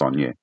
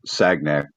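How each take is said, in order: First: The name is said with a 'ny' sound. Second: The name is said with a hard g sound. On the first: This is how the name is actually said. "but it's Saunier" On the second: This matches how the name is spelt. "it's Sagnac"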